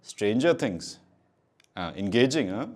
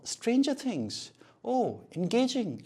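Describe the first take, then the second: First: The tone is flat and mockingly sarcastic. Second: The tone is curious and warmly empathetic. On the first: The speaker is mocking the other person. The speaker calls it wrong. "Don't से" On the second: The speaker is genuinely interested. The speaker calls it right. "आपका tone question वाला या फिर empathy वाला होना चाहिए"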